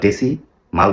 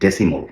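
First: The last syllable sounds like mal. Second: The last syllable sounds like mol. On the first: The speaker calls it wrong. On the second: The speaker calls it right.

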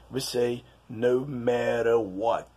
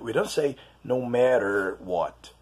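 First: The R sound at the end of matter is dropped. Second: The R sound at the end of matter is pronounced. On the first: The speaker calls it right. "we see the word matter losing its sound, its R sound" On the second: The speaker calls it wrong.

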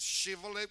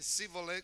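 First: The word begins with a 'sh' sound. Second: The word begins with a plain 's' sound. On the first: The speaker calls it right. "with the H" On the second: The speaker calls it wrong. "without the H"

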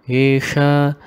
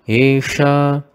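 Both takes have the same delivery.

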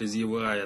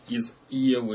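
First: EVA is given the trendy, fashionable reading. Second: EVA is read as a plain Russian word.

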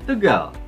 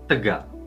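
First: Tegal ends on a high pitch. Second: Tegal ends on a low pitch. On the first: "Kalau misalnya mau mi juga nggak enak" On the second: "Bayangin kalau itu pakai do"

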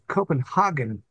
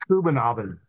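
First: It is said in a German-style pronunciation. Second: It is said in a Danish-style pronunciation. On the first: This is how Germans say it. "Copenhagen is how the Germans pronounce it" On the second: This is how a Dane would say it. "I think. Something like that"

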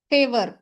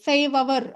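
First: The ending is blended into a short 'ar'. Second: The ending is split off as a separate 'avar'. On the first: The speaker calls it right. "ஃபேவர் அப்படின்னு நம்ம படிச்சிடறோம்" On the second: The speaker calls it wrong. "ஃபேவ் அவர் அப்படிங்கிற மாதிரி படிக்கிற மாதிரி இருக்கும்"

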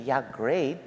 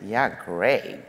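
First: It sounds genuinely pleased. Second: It sounds sarcastic and mocking.

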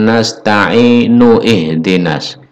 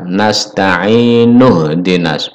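First: An 'ih' vowel is sounded between 'nu' and 'h'. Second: The 'nu' runs straight into 'h' without 'ih'. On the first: The speaker calls it wrong. "bukan nasta'inu ihdinas" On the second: The speaker calls it right. "Jadi nu ini langsung masuk ke ha"

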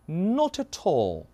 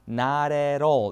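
First: The t sounds are pronounced fully and crisply. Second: The t sounds are softened and linked. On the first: "이게 영국식 발음입니다" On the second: "리을 발음으로 이렇게 약해져서 연음이 되는 게"

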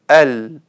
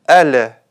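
First: The final consonant is held steady without echo. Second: The final consonant ends with an added bouncing echo. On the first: The speaker calls it right. "вместо" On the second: The speaker calls it wrong. "они делают калькаля на буквах с сукуном"

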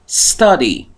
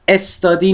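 First: The word begins directly with the s sound. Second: An extra vowel comes before the s sound. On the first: The speaker calls it right. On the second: The speaker calls it wrong.

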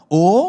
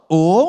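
First: The pitch rises on the vowel. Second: The same.

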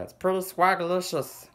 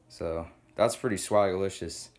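First: It is said in a put-on baby voice. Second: It is said in his normal voice.

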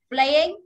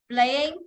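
No difference in how they are said.

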